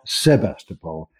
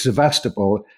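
First: SEBASTOPOL with a b, drawn out slowly; pronounced with B. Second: SEVASTOPOL with a v in the middle; pronounced with V. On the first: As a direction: say SEBASTOPOL slowly as se-BAS-topol. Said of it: "not Sebastopol". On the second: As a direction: say SEVASTOPOL as se-VAS-topol. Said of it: "he confirms, yes, it's". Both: Shown as a demonstration.

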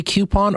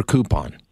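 First: "coupon" said KYOO-pon, with a y-glide; "kyoo" pronunciation. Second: "coupon" said KOO-pon, no y-glide; "koo" pronunciation. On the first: Host asks expert how to say it, "coupon" as KYOO-pon. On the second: Host offers expert the other option, "coupon" as KOO-pon. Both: Shown as a demonstration. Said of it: "Do you say coupon or coupon".

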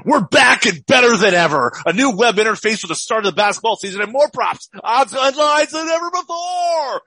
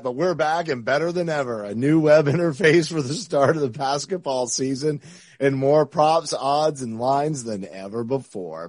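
First: Loud, high, hyped radio DJ; morning zoo radio voice. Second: Smooth, even sponsor read. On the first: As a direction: shout it like a morning radio host. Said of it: "I'm gonna do this morning zoo, morning zoo radio here". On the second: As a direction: read it like a calm ad spot. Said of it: "I love my ad read voice". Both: Acted.

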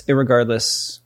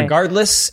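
First: "irregardless" with ir- tacked on, falling; added prefix. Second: Higher "Regardless", starting ree; "Regardless" with no ir- in front; proper word. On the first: Testing the non-word after the real one, lower. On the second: Testing the word beside the non-word, higher. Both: Shown as a demonstration.

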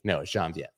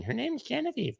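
First: Said in the usual way. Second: Very high squeaky imitation of hecklers; mock screaming. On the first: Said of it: "I know how to pronounce". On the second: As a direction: imitate nagging viewers in a thin falsetto. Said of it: "you guys kept screaming".

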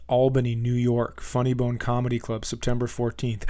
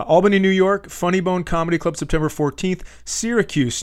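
First: Bent over, squashed lungs. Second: "Albany, New York" said higher and louder, standing upright; full voice again. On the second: Comedian rereads the tour date upright, louder and higher. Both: Real, not acted. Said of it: "part of my body is crushing my lungs".

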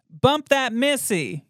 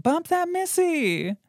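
First: Said in the usual way. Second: High excited call-out over the music; hyped party shout. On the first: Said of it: "I'll give you some guesses". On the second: Retold or imitated. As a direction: yell it like your song just came on. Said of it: "you're like".

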